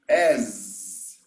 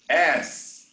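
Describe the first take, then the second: First: It ends in a buzzing z sound. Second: It ends in a hissing s sound. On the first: It is the comparison word. The speaker calls it right. "The pronunciation is as" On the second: It names the buttocks. The speaker calls it wrong. "if I pronounce like this, as, this is your buttocks"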